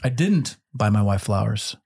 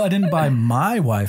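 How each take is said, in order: First: The stress is on the word didn't. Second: The stress is on the word my.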